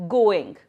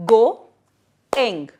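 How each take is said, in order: First: Said in the usual way. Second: "go-ing" in two separate beats, pause between; split into syllables. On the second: Shown as a demonstration. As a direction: break "go-ing" into loud GO, then ING. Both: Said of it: "break the word into two parts".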